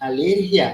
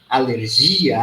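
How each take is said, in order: First: It is stressed the Spanish way. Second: It is stressed the Portuguese way. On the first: "Mudou o idioma, mudou a tonicidade" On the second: "Em português"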